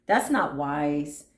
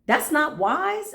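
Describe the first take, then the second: First: Lower, slow, stress on not; a low, slow "That's not wise." with weight on not; calm firm no. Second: High, slow scolding with wise rising; a mock-shocked "That's not wise." rising on wise; incredulous. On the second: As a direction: lift "That's not wise." up in disbelief, slowly. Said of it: "I ain't feeding that". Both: Shown as a demonstration.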